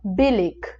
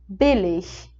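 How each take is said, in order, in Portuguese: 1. A palavra termina em som de k forte. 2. A palavra termina em som suave de chiado. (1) "puxando para um K" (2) "o alemão padrão, digamos assim, o som é esse Ich"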